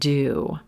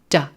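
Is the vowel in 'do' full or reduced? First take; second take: full; reduced. First: The vowel is a full long oo sound. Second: The vowel is reduced to a short schwa. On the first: It is the main verb. "Fully pronounced blue moon do" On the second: It is a helping verb. "Do reduced to schwa"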